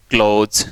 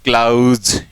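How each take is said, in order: First: "क्लोज" with a long o, ending in z; close vowel sound. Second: "क्लाउज" stretched on a wide aw glide; clause vowel sound. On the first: Teacher contrasting two words, "क्लोज" with long o. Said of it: "इसको तो हम बोलते हैं". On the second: Teacher contrasting with close, "क्लाउज" with wide drawn-out aw. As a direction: draw out "क्लाउज" with open aw, ending in z. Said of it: "इसको हम बोलेंगे". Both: Shown as a demonstration.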